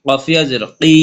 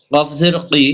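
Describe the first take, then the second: First: Final কি held one alif; recited spelling with a long কি; long madd vowel. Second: Final কি kept short; recited spelling with a brief কি; short vowel. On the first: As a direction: draw out the vowel of কি. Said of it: "এক লিপ টেনে পড়বো". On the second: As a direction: say কি without stretching it. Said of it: "হরকত উচ্চারণ তাড়াতাড়ি পড়বো". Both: Shown as a demonstration.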